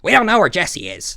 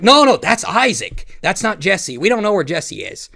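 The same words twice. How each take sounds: First: Exaggerated high-pitched impression; Boogie. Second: Boogie. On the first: Storyteller demonstrating how Boogie sounds, exaggerated high impression. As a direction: repeat it as a caricature of his voice. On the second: Retold or imitated. Boogie insisting that's Isaac, not Jesse, high imitated protest. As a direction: impersonate him insisting, pitched up. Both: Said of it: "That's how he fucking sounds".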